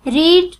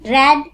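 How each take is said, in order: First: The vowel is a long 'ee' sound. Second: The vowel is a short 'e' sound. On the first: It refers to the present tense. "जब हम present tense की बात कर रहे होते हैं तब हम इसको रीड पढ़ते हैं" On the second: It refers to the past tense. "Past के बारे में पढ़ रहे हैं तो इसको हम रेड प्रोनाउंस करेंगे"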